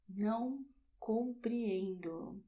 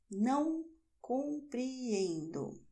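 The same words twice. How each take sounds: First: Said in the usual way. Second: Stretched-out teacher demo of Não compreendo; slow classroom modelling; slow careful model. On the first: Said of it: "second take of the same phrase". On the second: Shown as a demonstration. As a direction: say Não compreendo slowly, weighing each syllable. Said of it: "teacher models phrase, then repeats it".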